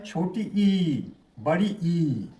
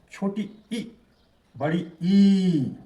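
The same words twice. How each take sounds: First: छोटी ई and बड़ी ई both drawn out long; school's undifferentiated vowels. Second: छोटी ई cut short, बड़ी ई held very long; contrasted vowel length. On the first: Teacher imitates how schools teach it, both ई equally long. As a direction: stretch both ई vowels alike, letting them fall. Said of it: "school में कैसे सिखाया जाता है". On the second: Teacher shows the proper contrast, tiny first ई, long second ई. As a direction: clip the first ई, stretch the second ई slowly. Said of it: "इस तरह से उच्चारित". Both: Shown as a demonstration.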